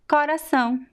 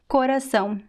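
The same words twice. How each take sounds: First: The first O is pronounced open. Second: The first O is pronounced closed. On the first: The speaker is from the Northeast of Brazil. "we usually pronounce the first O very open" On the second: The speaker is from the South or Southeast of Brazil. "It's closed"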